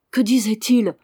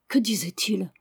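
First: Louder, pressing repeat of the question; insistent repeat. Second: Said in the usual way. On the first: Acted. Father repeats his question to his silent son, louder. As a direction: press him for an answer. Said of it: "répéta le vieillard".

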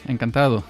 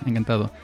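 The two takes are said the same way.

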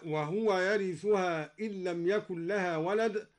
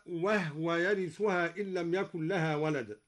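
First: "وهو" in three syllables, wa-hu-wa; vowelled ha. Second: "وهو" in two syllables, wah-wa; silent-vowel ha. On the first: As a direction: say "وهو" as wahuwa, with u after the ha. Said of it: "سكن الدوري الهاء". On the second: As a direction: say "وهو" as wahwa, no vowel after the ha. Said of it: "سكن الدوري الهاء هكذا". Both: Shown as a demonstration.

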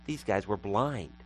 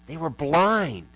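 First: Said in the usual way. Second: "blind" drawn out, higher and louder; stress on BLIND. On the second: Real, not acted. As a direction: lean hard and long on the word "blind". Repeats line with heavy emphasis.

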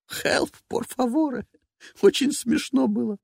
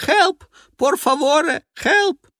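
First: Slow, high mock cry for help; teasing parody of the scream; mocking imitation. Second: High, loud cries for help; a drowning man yelling; desperate screaming. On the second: Acted. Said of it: "Мужской крик".

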